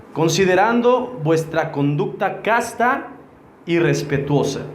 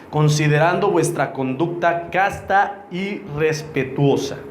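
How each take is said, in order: The two takes are said the same way.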